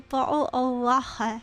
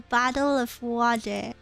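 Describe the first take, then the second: First: It is said in a Glasgow accent. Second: It is said in an American accent.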